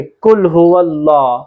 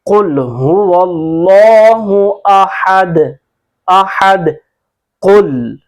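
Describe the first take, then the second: First: कुल हुवल्लाह with an ordinary front "k"; unweighted, less drawn-out कुल हुवल्लाह; wrong light Qaf. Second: कुल हुवल्लाहु अहद chanted slowly with heavy Qaf and long "Allaah"; measured tajweed recital, bouncing the end of अहद; full-mouthed, drawn-out recitation of कुल हुवल्लाहु अहद; Quran recitation. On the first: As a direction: show the careless reading, कुल said as plain "kul". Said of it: "यूं नहीं पढ़ेंगे". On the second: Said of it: "जिस तरह हम पढ़ते हैं". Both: Shown as a demonstration.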